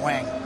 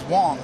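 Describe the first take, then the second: First: The vowel sounds like the one in 'bang'. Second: The vowel sounds like the one in 'long'. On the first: This is how others commonly said the name. The speaker calls it wrong. "Even the Yankees called him Wang" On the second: This is how the person himself said the name. The speaker calls it right. "His pronunciation was Wong"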